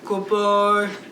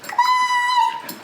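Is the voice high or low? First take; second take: low; high. First: It is said in a low deep voice. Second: It is said in a high squeaky voice.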